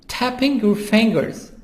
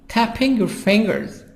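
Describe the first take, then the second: Both takes have the same delivery.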